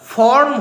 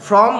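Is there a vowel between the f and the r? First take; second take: yes; no. First: It is said with a vowel before the r. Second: It is said with f and r together. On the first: The speaker calls it right. "সেই রকম ফর্ম হয়" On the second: The speaker calls it wrong. "ফ্রম নয়"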